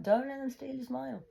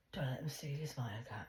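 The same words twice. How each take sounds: First: Said in the usual way. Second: Whispered, voice dropped low; mocking whisper. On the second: Mocking the demonologist's advice in a whisper. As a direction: hiss it like a sneering aside.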